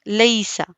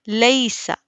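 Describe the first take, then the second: No difference in how they are said.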